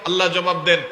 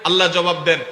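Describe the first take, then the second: No difference in how they are said.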